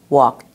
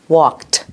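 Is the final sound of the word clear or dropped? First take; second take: dropped; clear. First: The final t sound is dropped or barely heard. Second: The final t sound is clearly pronounced.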